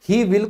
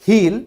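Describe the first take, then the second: First: Both words are said fully and separately. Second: The words merge into one short syllable. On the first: "इसी तरीके से ही विल को हम English में क्या कहेंगे"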